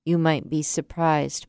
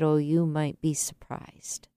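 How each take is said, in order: First: Said in the usual way. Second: Soft whispered reassurance, Oh, you might be surprised barely voiced. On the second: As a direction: whisper it gently to a heartbroken stranger. Gentle reply to a heartbroken man.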